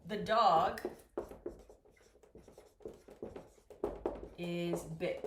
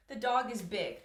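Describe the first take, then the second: First: Slow dictation. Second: Said in the usual way. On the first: Shown as a demonstration. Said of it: "if I say".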